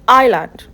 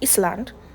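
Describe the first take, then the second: First: The S sound is silent in the word. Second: The S sound is pronounced in the word. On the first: The speaker calls it right. "So the S is silent in this word" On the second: The speaker calls it wrong. "you don't say Island"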